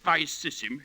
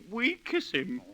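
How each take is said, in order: First: It begins with V and uses soft S sounds. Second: It begins with W and uses a hard K. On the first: This is the traditional pronunciation. The speaker calls it right. "instead of vice sis him" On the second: This is the new school pronunciation. The speaker calls it wrong. "you'd make 'em say we kiss him"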